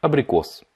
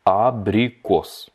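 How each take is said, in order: First: Said in the usual way. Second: "Abrikos" drawn out syllable by syllable; slowed-down model. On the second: Shown as a demonstration. Teacher breaks down the Russian for apricot, very slow. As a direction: stretch "A-bri-kos" very slowly for learners.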